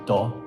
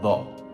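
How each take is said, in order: First: The syllable begins with a hard d sound. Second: The syllable begins with a soft th sound. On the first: The speaker calls it wrong. "I would think it would be pronounced like do" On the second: The speaker calls it right. "It's actually pronounced tho"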